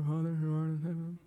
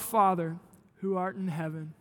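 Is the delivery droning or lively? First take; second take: droning; lively. First: It is said in a flat, droning voice. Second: It is said with lively, energetic vitality. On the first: The words are recited without thinking about them. The speaker calls it wrong. "saying it in a droning voice" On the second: The words are prayed as a meant, shared prayer. The speaker calls it right. "with life and vitality"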